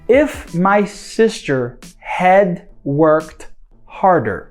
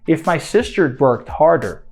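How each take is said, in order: First: The word 'had' is said in full. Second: 'Had' shrinks to a short 'd sound. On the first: "this had" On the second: "I could just contract to the"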